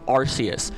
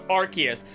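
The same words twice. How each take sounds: First: The first syllable does not sound like "arc". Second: The first syllable sounds like "arc". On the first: The speaker calls it wrong. "I will say it wrong again" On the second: The speaker calls it right. "I know it's Arceus, like Arc"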